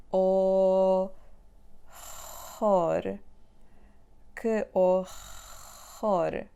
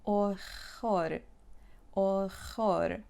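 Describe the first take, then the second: First: "Horror" loud with a throat-scraping R; the wrong, harsh way; exaggerated scraped R. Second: "Horror" with a gentle h-like R; the easy way; soft back R. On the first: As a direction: overdo the R in "horror". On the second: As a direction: breathe the R in "Horror" softly. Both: Shown as a demonstration. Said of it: "do not scratch your throat".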